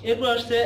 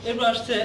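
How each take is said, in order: Both takes have the same delivery.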